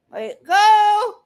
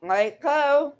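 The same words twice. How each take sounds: First: Much higher and louder, losing patience; angry shout. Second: Said in the usual way. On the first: Real, not acted. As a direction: bark it the second time, fed up. Repeats demand, then escalates.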